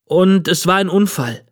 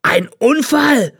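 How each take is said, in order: First: Put-on higher boy's voice, matter-of-fact; truthful boy. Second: High, drawn-out roar of disbelief; outraged bellow. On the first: Boy to the old man he wronged, truthfully explaining. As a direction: add it as a simple truth. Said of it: "fügte ich wahrheitsgemäß hinzu". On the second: Old man throws the boy's excuse back, bellowing. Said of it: "brüllte der alte Mann". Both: A narrator's reading.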